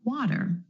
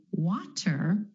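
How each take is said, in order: First: "water" with the T flapped like a quick D. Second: "water" with a crisp, released T; true T. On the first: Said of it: "Do you hear that flap T or the D sound?". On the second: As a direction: say "water" with a hard T in the middle. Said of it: "Instead of water". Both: Shown as a demonstration.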